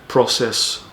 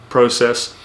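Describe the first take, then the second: The two takes are said the same way.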